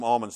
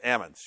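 First: The L sound is clearly pronounced. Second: The L sound is dropped entirely. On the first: This is the standard form that locals avoid. "nobody calls them almonds there" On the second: This is the local slang form. "It's almonds. ... you got to knock the L out of them"

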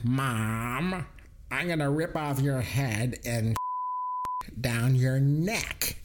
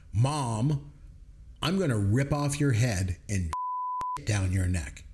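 First: It is said in a put-on character voice. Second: It is said in the speaker's normal voice.

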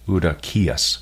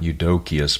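First: The stress is on the last syllable. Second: The stress is not on the last syllable. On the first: The speaker calls it right. "the emphasis there is rightly placed on the last syllable" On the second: The speaker calls it wrong. "the correct pronunciation is not Eudokius"

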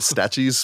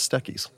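First: The middle consonant is a 'ch' sound. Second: The middle consonant is a 'k' sound. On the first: The speaker calls it wrong. "I can't guarantee I won't keep calling it Statchies" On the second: The speaker calls it right. "but apparently it is Stackies"

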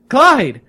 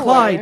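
First: The name is called very loudly. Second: The name is called fairly quietly.

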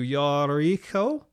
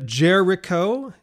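First: The name is pronounced the Hebrew way. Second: The name is pronounced the English way. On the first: "in Hebrew it would be closer to Yariko" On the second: "that's the English pronunciation"

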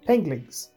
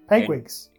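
First: The word is said with an inserted l sound. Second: The word is said with its usual sounds. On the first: The speaker calls it wrong. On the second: The speaker calls it right.

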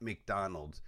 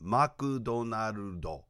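First: The name is said with English pronunciation. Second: The name is said with Japanese pronunciation. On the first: The speaker calls it wrong. "it's not McDonald's" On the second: The speaker calls it right. "the correct pronunciation of McDonald's in Japanese"

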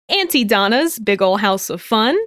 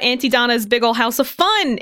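First: The title is said slowly. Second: The title is said at normal speed.

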